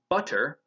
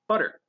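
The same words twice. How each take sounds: First: The middle consonant is a full, released T. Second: The middle consonant is a quick tongue tap. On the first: "We are not actually saying butter" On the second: "simply tapping our tongue on the roof of our mouth"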